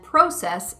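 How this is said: It has the British vowel pronunciation. "process in England"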